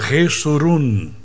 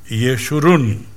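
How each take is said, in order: First: The name is said with an 's' sound. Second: The name is said with a 'sh' sound. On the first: This is the form the name took in Spanish. "entró en el español como Jesurún, porque el español no tiene el sonido shu" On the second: This is the original Hebrew form of the name. "Esa es la pronunciación correcta de Yeshurún"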